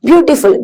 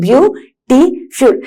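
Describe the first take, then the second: First: Said in the usual way. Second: beautiful broken into three slow, separate syllables; teacher slowly sounding out beautiful in pieces. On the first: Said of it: "ഇതൊക്കെ ഒറ്റ വേർഡിലാണോ". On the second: Shown as a demonstration. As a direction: pause after each syllable of beautiful. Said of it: "ഒരു ബ്രീത്തിലല്ല നിങ്ങൾ ആ word".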